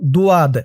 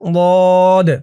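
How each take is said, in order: First: A w-like glide follows the first consonant. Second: No glide; a heavy, full-mouthed consonant sound. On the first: The speaker calls it wrong. "আপনারা অনেকে বলেন দুয়াদ" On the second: The speaker calls it right. "বলতে হবে দাল ضاد"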